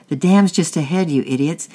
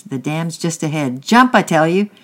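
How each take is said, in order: First: Louder, higher shout of warning; angry yell. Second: Builds to a loud, high shout on jump; shouted warning. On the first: Angry man on the bank yelling at boys in the boat. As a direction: yell it at the boys drifting toward danger. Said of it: "yelled the young, the angry man". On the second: Angry man in the river shouting to boys in boat. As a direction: warn them, then order them hard. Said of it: "shouted the angry man". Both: A narrator's reading.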